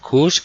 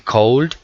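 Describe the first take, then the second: First: The vowel is a short 'oo' sound. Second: The vowel is a long 'oh' sound. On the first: The speaker calls it right. "sino could" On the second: The speaker calls it wrong. "No se dice cold ni nada de eso"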